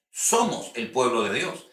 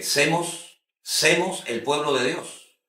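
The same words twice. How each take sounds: First: "Somos" said clearly with a full o, a little slowly; correct "somos". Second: Slow, drawn out "semos" instead of "somos"; wrong "semos". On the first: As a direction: model the right form "Somos el pueblo de Dios". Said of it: "es somos". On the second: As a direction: say "semos Semos el pueblo de Dios" slowly, stretching the mistaken "semos". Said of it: "personas que dicen que". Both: Shown as a demonstration.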